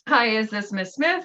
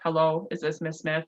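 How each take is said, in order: First: It is said in a natural, lively voice. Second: It is said in a flat, robotic voice.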